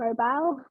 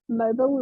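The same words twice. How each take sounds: First: The word is said with a New Zealand pronunciation. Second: The word is said with an American pronunciation. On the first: It can be harder for American listeners to understand. "rather than mobile" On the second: It is easier for American listeners to understand. "mobile rather than"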